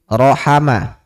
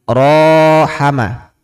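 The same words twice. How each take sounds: First: All of the vowels are pronounced short. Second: One of the vowels is held long. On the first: "Pendek semua ini" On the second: "Panjang ada alif"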